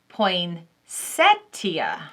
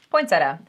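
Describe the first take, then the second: First: Every sound of the word is pronounced. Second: Part of the word is dropped when said. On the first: This follows the spelling. "it's actually like spelt" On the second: This is how people in the South say it. "We have a tendency to just drop letters we don't feel like saying"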